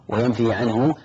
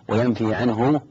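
The two takes are said the same way.

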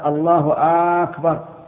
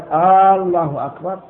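First: The opening vowel of the second word is lengthened. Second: The opening vowel of the first word is lengthened. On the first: "ولا في الثاني" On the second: "ويشترط أن لا يمد الهمزة لا في الجزء الأول منها"

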